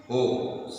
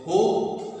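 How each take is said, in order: First: Ho dropped to a low pitch. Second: Ho sung on a high pitch. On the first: Teacher shows the low ho of the dance, low pitch. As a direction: let ho fall low. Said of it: "ho low pitch". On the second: Teacher shows the high ho of the dance, high pitch. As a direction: lift ho up high. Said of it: "ho high pitch". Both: Shown as a demonstration.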